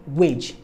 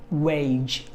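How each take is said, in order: First: WAGE with one short e, like "wedge"; short pure vowel. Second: WAGE with a long ay-ee glide; gliding diphthong. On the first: Teacher showing the mistake to avoid, short pure-vowel WAGE. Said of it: "It's not gonna be wage". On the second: Teacher giving the correct form, long gliding WAGE. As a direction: stretch WAGE through both vowels. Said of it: "but it's gonna be wage". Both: Shown as a demonstration.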